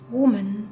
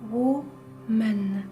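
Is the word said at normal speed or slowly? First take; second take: normal; slow. First: The word is said at normal speed. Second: The word is said noticeably more slowly.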